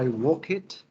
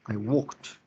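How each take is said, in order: First: The ending is sounded as an extra syllable. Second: The ending is a short final consonant only. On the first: The speaker calls it wrong. "yo no digo I walk it" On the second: The speaker calls it right. "Yo digo ... Es un sonido t o d al final fuerte"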